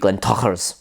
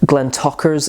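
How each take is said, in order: First: The middle consonant is a throaty, rasping sound. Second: The middle consonant is a plain hard k. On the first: "it is supposed to be Glentocher's, as if you're saying Kapla" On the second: "is also fine"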